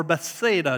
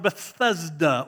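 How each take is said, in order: First: "Bethsaida" as beth-SAY-duh; pronounced Bethsaida. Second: "Bethesda" as buh-THEZ-duh; pronounced Bethesda. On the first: Preacher giving the alternative town name, "Bethsaida" as beth-SAY-duh. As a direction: say "Bethsaida" with SAY stressed in the middle. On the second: Preacher offering one way to say the town, "Bethesda" as buh-THEZ-duh. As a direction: say "Bethesda" with a short e, THEZ, in the middle. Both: Shown as a demonstration. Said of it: "depending how you wanna pronounce it".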